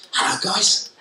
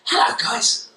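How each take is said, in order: First: A bright, smiling hello, higher than usual; smiling friendly greeting. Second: Much higher, exaggerated sing-song hello; over-the-top greeting. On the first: To Jordan and Courtney, showing liking with a smiling hello. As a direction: greet them warmly with a smile. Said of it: "I'm communicating how much I like you ... by smiling at you". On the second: Teacher hamming up a greeting to Jordan and Courtney, far too high. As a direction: overdo the friendliness until it turns a bit mad. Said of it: "Unthreatening, okay, but a bit mental". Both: Shown as a demonstration.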